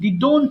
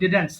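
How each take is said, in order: First: The second syllable sounds like 'dont'. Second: The second syllable sounds like 'dent'. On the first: The speaker calls it wrong. "অনেকে ডিডোন্ট বলে" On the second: The speaker calls it right. "উচ্চারণ হবে ডিডেন্ট simply"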